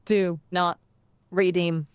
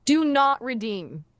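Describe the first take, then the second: First: Lightly robotic, word-by-word delivery. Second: A slightly raised, slow delivery; louder retry. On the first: Assistant attempting a requested accent, slightly robotic voice. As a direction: separate the words with pauses, a hint of robot. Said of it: "That was a robot voice!". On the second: Assistant retrying louder for the streamer, raised voice. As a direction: say it a bit louder and higher, drawn out. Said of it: "do it again, but louder". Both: Shown as a demonstration.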